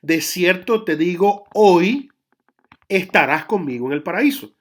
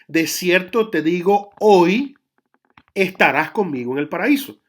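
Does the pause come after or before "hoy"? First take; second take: after; after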